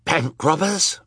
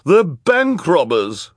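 First: BANK ROBBERS asked high, with rising end; startled question. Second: High, loud, drawn-out voice; accusing character. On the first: Banker echoing the accusation, "Bank robbers" high and questioning. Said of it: "Mister Poe asked". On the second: Missus Bass accusing the children, high loud drawn-out voice. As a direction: stretch the accusation out loudly. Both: A narrator's reading.

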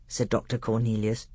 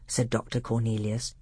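The two takes are said the same way.

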